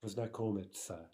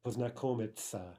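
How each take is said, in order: Both takes have the same delivery.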